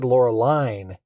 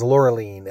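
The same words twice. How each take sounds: First: The name is said with an anglicized pronunciation. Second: The name is said with a French pronunciation. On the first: The speaker calls it wrong. "we were mispronouncing her name, I guess because we're not French" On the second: The speaker calls it right. "he refers to her as Loreline"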